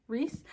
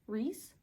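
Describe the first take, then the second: First: The vowel sounds like 'ee'. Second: The same.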